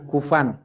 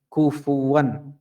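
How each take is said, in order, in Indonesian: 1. Bunyi w tidak terdengar di tengah. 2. Bunyi w terdengar di tengah.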